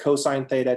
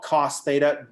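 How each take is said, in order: First: The first word is said in full. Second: The first word is cut short. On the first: The speaker calls it right. "You always say cosine" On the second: The speaker calls it wrong. "Do not do that"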